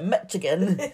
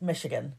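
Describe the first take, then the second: First: The middle consonant sounds like 'ch'. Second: The middle consonant sounds like 'sh'. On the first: The speaker calls it wrong. "I called it Michigan" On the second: The speaker calls it right. "it's actually pronounced Michigan"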